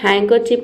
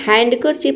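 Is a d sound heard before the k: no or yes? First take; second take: no; yes. First: No d sound is pronounced before the k. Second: A d sound is pronounced before the k. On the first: The speaker calls it right. "इसे बोलते हैं हैंकरचीफ" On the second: The speaker calls it wrong. "इसे हम हैंडकरचीफ नहीं बोलेंगे"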